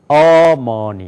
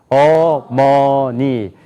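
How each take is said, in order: First: The stress is on the first syllable. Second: All syllables have equal pitch, loudness and length. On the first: "앞에가 강조가 되면은" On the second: "한번 한국 사람 읽어봅시다. ... 높이가 같아요. ... 크기도 같아요. ... 길이도 같아요"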